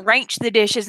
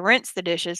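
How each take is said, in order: First: "ranch" in place of rinse, ending in ch; regional "rinse". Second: Said in the usual way. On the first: Shown as a demonstration. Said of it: "people that say they gonna". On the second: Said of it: "instead of".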